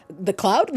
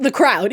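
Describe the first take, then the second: First: Cloud said with an L, as in cloud, asked with a rising tune; "cloud" with a clear L, questioning itself; slip of the tongue. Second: Crowd said with an R, as in crowd, with a firm falling tune; "crowd" with a clear R, settling it; corrected word. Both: Shown as a demonstration.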